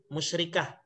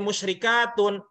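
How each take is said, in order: First: The word ends in a clipped, silent-vowel 'ah'. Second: The word ends in a full 'atun' syllable. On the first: The ending is read in its pausal form. "Cuma saya baca matikan" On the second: The ending is read as it is written. "Bisa jadi musyrikatun. Kalau mau dibaca sesuai tulisannya juga bisa"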